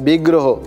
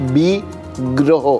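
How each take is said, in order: First: The word is said smoothly as one unit. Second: The word is broken into two parts. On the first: It means an idol of a deity. "পুরো শব্দটা একসঙ্গে উচ্চারণ করলে" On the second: It means a planet gone bad, a stroke of misfortune. "ভেঙে উচ্চারণ করলে"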